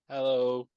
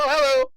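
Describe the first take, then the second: First: It is said in a normal voice. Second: It is said in a higher-pitched voice.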